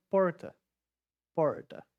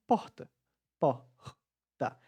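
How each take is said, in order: First: Porta with a throaty retroflex R, like English r; paulista R. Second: Porta with the R as mere breath, like an h; Nordeste R. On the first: Teacher showing students how a Paulista says porta, throaty R. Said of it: "com esse R articulado bem na garganta". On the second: Teacher showing how we say porta in the Nordeste, airy R. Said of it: "aqui no Nordeste a gente fala". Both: Shown as a demonstration.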